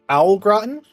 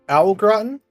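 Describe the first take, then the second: First: The first vowel sounds like 'ow'. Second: The first vowel sounds like 'ow'.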